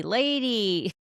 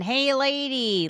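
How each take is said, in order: First: Put-on Brooklyn accent. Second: A slow, drawn-out Brooklyn "Hey, lady," called out high; high slow Brooklyn holler of "Hey, lady"; Brooklyn accent. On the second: Retold or imitated. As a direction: imitate a crusty Brooklyn plumber calling "Hey, lady" across the house. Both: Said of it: "They have a Brooklyn accent".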